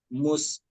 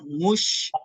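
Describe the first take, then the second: First: The consonant is a sharp, hissing s. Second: The consonant is a hushing sh sound. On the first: The speaker calls it right. "sa, sya itu harus dibedakan" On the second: The speaker calls it wrong. "Ada kadang orang mush, mush, ah itu jangan sampai"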